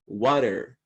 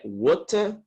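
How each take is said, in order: First: It is said in an American accent. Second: It is said in a non-American accent.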